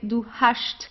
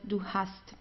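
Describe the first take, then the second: First: The ending is said as 'sht', Swabian-style. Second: The ending is said as a plain 'st'. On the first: It is a southern regional dialect form. "in southern Germany we have um, we have some dialects where you would pronounce it as hast" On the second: It is the standard form taught in the course. "standard German, or let's say clean German"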